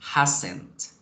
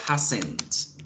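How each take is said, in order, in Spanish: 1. Se dice como una sola palabra contraída. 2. Se dice como una sola palabra contraída.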